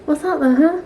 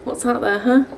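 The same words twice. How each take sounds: First: Pet talk. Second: Said in the usual way. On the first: Real, not acted. Asking her dog what is outside, higher cooing pet talk. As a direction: coo the question at the dog.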